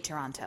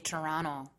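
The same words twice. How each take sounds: First: The second t is clearly pronounced. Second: The second t is dropped. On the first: This is how an outsider says it. "But I say Toronto" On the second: This is how local people say it. "Toronto people say Toronto"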